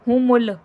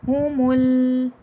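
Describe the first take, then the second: First: The middle sound is cut short, not held. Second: The middle sound is held for a moment. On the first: The speaker calls it wrong. "ऐसा नहीं करिएगा" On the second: The speaker calls it right. "थोड़ी सेकंड के लिए होल्ड करिएगा"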